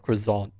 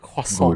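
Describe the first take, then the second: First: It is said with an American pronunciation. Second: It is said with a French pronunciation. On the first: The speaker calls it wrong. "instead of a croissant, like the typical Americans" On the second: The speaker calls it right. "I will start calling it a"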